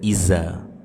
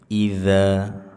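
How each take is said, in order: First: The middle consonant is a plain z sound. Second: The middle consonant is a voiced th sound. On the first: The speaker calls it wrong. "Jangan dibaca dengan z" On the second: The speaker calls it right. "za ujung lidah menempel dengan ujung-ujung gigi seri atas"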